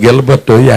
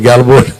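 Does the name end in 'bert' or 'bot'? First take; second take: bert; bot. First: The name ends with a 'bert' sound. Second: The name ends with a 'bot' sound. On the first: This is the name as it was given. The speaker calls it right. "ఎక్కడ గెలబట్టు" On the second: This is how the villagers mangled the name. The speaker calls it wrong. "గెలబోటు గెలబోటు అని పిలుతున్నా"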